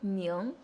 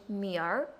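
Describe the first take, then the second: First: It ends plainly in ng, without an r-sound. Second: It ends with a curled r-sound.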